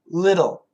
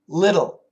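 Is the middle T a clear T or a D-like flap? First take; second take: flap; flap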